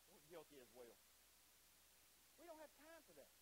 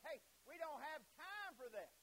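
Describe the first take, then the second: First: Softer, hushed echo of the excuse; quiet admission. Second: Slow, high-pitched mock refusal; acted brush-off. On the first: Acted. Preacher admitting we are guilty as well, subdued. Same words owned as congregation's guilt. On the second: Preacher voicing those turning Jesus away, dismissive. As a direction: wave them off, drawn out and raised.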